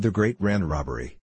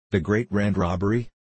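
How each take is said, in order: First: Said in the usual way. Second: THE GREAT RAND ROBBERY repeated as a disbelieving question, rising at the end; mildly incredulous echo of THE GREAT RAND ROBBERY. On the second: A narrator's reading. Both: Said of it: "he repeated incredulously".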